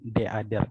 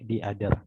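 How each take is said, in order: First: The word 'the' is said with a short 'uh' vowel. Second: The word 'the' is said with a long 'ee' vowel. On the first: The speaker calls it wrong. "bukan deader" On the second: The speaker calls it right. "tapi diader karena huruf vokal bertemu dengan huruf vokal"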